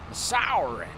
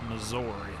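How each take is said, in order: First: The middle consonant is a hissing s sound. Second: The middle consonant is a buzzing z sound. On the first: "It's spelled like you would say Missouri" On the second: "Like a Z, Missouri. That's how I always said it growing up"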